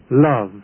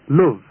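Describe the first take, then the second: First: It is said with a southern English vowel. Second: It is said with a Manchester English vowel. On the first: "as spoken in the south" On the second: "are pronounced in Manchester and many other parts as"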